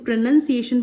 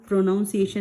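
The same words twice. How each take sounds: First: The second syllable sounds like 'nun'. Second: The second syllable sounds like 'noun'. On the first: The speaker calls it right. "तो प्रोनाउंसिएशन बोलते हैं इसे" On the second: The speaker calls it wrong. "प्रोनाउंस प्रोनाउंसिएशन नहीं बोलते"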